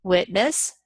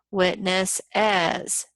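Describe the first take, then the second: First: Said in the usual way. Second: "Witness as" slowly, in three syllables, WIT-ness-iz; slow witness's. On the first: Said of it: "two syllables". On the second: Shown as a demonstration. Teacher stretching "Witness as" to count its syllables. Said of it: "three syllables".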